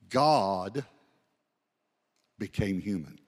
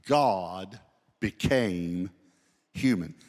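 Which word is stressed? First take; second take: God; human. First: The stress is not on human. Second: The stress falls on the word human.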